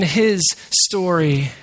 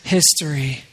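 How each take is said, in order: First: It is said slowly as two separate words. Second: It is said fast, blending into one word. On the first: The story belongs to God. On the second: It becomes the word for the past.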